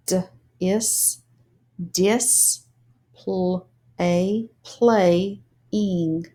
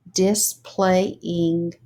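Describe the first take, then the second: First: "dis- pl- a playing" broken into syllables; sounded out syllables. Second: Said in the usual way. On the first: Shown as a demonstration. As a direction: sound out displaying piece by piece. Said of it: "read the syllables". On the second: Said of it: "put it together as words".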